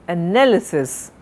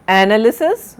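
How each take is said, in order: First: "analysis" as uh-NAL-uh-sis, falling; stress on second syllable. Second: "analysis" as AN-uh-ly-sis, rising at the end; wrong stress, first syllable. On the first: Teacher correcting the error, "analysis" stressed on NAL. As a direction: keep the first "a" weak, lean on "nal" in "analysis". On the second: Teacher showing the wrong form, "analysis" stressed on AN with a rise. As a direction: punch "an" in "analysis" and lift the ending. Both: Shown as a demonstration. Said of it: "not analysis".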